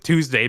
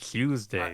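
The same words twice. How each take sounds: First: The word is said in a plain accent. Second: The word is said in a British accent.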